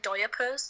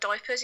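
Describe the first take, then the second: First: The word is said with an extra syllable. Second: The word is said with its usual syllables. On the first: The speaker calls it wrong. "like he puts an extra syllable in it" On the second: The speaker calls it right. "can't pronounce the word diapers"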